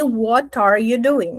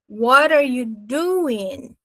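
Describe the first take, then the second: First: What and are are separated by a clear T. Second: What and are are linked by a flapped T.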